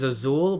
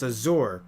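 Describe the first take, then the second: First: The name ends with an L sound. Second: The name ends with an R sound. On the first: The speaker calls it wrong. "I keep on saying her name is Azul, but it's not" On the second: The speaker calls it right. "It's Azur"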